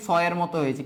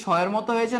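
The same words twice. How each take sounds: First: শয়ের said with a plain s, "soyer"; s sound. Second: শয়ের said with sh, "shoyer"; sh sound. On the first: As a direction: say শয়ের with a sharp s, not sh. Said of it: "নাকি". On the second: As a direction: say শয়ের with a hushing sh. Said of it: "শয়ের উচ্চারণ কি". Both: Shown as a demonstration.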